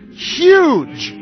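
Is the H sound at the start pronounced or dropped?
pronounced. The word starts with a clear H sound.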